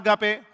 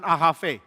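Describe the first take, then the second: First: It is said with the older reading. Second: It is said with the modern Greek pronunciation. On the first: "Bagaimana baca agape? Kita kurang tahu" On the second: "orang Yunani modern akan mengatakan ahave"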